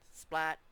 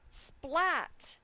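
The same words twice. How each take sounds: First: The voice sounds flat and robotic. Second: The voice sounds lively and animated.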